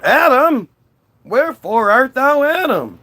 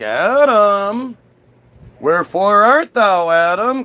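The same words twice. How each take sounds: First: Much higher, louder theatrical call; insistent calling out. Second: Higher, louder mock-divine call. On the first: Acted. God cannot find hidden Adam, calling out insistently. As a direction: bellow the name as a searching God. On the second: God gets home looking for Adam, calling out. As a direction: call across a garden in theatrical style.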